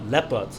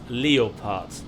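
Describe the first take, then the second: First: It is pronounced the English way. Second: It is pronounced the German way. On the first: The speaker calls it wrong. "That sounds like a sickness" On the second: The speaker calls it right. "I prefer the German pronunciation, which is leopard"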